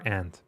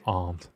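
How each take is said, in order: First: Aunt is said in an American accent. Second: Aunt is said in a British accent.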